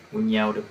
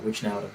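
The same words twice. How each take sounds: First: "Wijnaldum" said as win-YEL-dum; alternative pronunciation. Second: "Wijnaldum" said as wish-NEL-dum; second-guessed pronunciation. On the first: Fan reading out the Liverpool line-up, "Wijnaldum" tried as win-YEL-dum. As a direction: say "Wijnaldum" with a y glide after Win. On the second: Fan unsure of a player's name, "Wijnaldum" retried as wish-NEL-dum. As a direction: say "Wijnaldum" with a sh before the n, softer. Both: Shown as a demonstration. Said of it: "however you say it".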